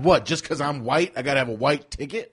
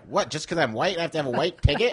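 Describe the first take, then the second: First: It is said in his normal voice. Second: It is said in a put-on white-guy voice.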